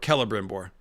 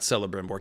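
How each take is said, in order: First: The name does not start like celery. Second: The name starts like the word celery. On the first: The speaker calls it right. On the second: The speaker calls it wrong.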